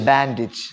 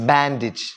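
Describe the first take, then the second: No difference in how they are said.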